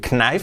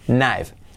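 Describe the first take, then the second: First: The word begins with a k sound. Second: The word begins with an n sound. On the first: The speaker calls it wrong. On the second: The speaker calls it right.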